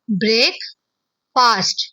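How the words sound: There is a short pause after break.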